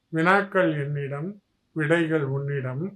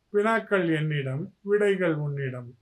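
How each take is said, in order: The two takes are said the same way.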